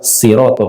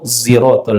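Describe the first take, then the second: First: The word begins with a light, plain s sound. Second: The word begins with a buzzing z sound. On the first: This is how it is read in Kufa. "Di daerah Kufah siratal kayak huruf sa gitu" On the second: This is how it is read in Morocco. "Di Maroko ziratal ladzi"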